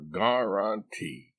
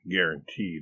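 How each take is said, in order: First: It is said with a Southern US pronunciation. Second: It is said with a standard pronunciation. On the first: This is how people in the South say it. "They all say guaranteed away down yonder in the land of cotton" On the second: This is the usual way to say it. "You mean guaranteed"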